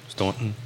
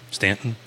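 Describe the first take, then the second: First: Staunton? asked with aw vowel, quiet; questioning Staunton. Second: Stanton? asked with short a and a rising tune; questioning Stanton. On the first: Host weighs the town name, Staunton with aw vowel. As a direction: offer Staunton as the other option, much softer. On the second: Host asks co-host which is right, Stanton questioning. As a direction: try Stanton as a question, quietly. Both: Shown as a demonstration. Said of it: "Or Staunton".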